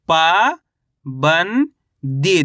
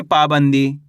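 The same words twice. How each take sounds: First: पा, बन, दी held apart, first two rising; spell-reading पा, बन, दी in drawn-out pieces; syllable by syllable. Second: Said in the usual way. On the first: Shown as a demonstration. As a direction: sound out पा ... बन ... दी with gaps. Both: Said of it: "कैसे पढ़ेंगे?".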